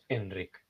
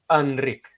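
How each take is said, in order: First: The first vowel is a clear, full E sound. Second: The first vowel is a neutral sound between A and E. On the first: "no pasa nada si lo pronuncias Enric" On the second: "tenemos lo que se llama la vocal neutra... entre una A y una E"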